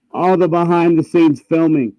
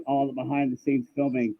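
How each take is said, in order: First: Louder, every word of "All the behind the scenes filming" punched; emphatic repeat. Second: Said in the usual way. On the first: Real, not acted.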